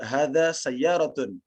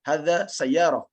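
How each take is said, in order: First: The last word ends with a full -tun ending. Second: The last word ends softly with an -h. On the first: It is more than people need to say. The speaker calls it wrong. "tidak perlu menyebut hadza sayyaratun" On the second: It is the normal way people say it. The speaker calls it right. "kita hanya sebut hadza sayyarah"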